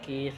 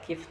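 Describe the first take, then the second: First: The vowel is drawn out long. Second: The vowel is short. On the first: The speaker calls it wrong. "tidak kif" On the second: The speaker calls it right. "dibaca kif, tidak panjang"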